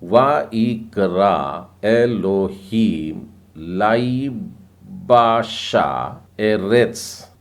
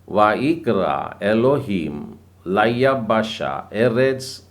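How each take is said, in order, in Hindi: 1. यह वाक्यांश धीमी, सावधानी भरी गति से पढ़ा जाता है। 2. यह वाक्यांश तेज़, दौड़ती हुई गति से पढ़ा जाता है।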